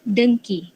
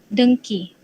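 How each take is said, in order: The two takes are said the same way.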